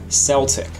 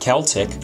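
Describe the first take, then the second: First: The word begins with a soft S sound. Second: The word begins with a hard K sound. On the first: "the American way with a soft C" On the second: "the British way with a hard C"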